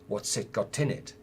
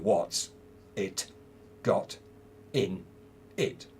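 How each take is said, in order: First: Final consonants link smoothly into the following vowels. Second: Each word is said separately, without linking. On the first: The speaker calls it right. "That's probably what you would say in connected speech" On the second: The speaker calls it wrong. "you wouldn't say what's it got in it. Well, you could say that, but you sound very silly"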